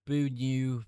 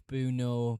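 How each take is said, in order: First: Loud "Boo new", ending in NEW; "Boo new" with an oo sound at the end; trying a pronunciation. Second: Loud "boo no", ending in NO; "boo no" with an oh sound at the end; alternative pronunciation. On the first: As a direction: belt out "Boo new" as one attempt. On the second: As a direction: belt out "boo no" as another attempt. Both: Shown as a demonstration. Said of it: "Who knows how he pronounces his name".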